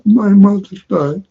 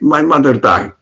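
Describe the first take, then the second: First: It is said sorrowfully, as if weeping. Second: It is said casually, without sorrow. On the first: The speaker calls it right. "the way it is said also cries" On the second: The speaker calls it wrong. "The way it exp expresses it is not like this"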